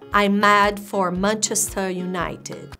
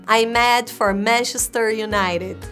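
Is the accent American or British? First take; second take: British; American. First: It is spoken in a put-on British accent. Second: It is spoken in an American accent. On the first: "Vejam meu maravilhoso sotaque britânico" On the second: "Isso é americano, gente"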